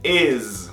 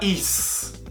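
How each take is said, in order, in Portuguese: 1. A palavra termina com um Z vibrante. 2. A palavra termina com um S sibilante. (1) "Sonzinho de Z" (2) "Não é is"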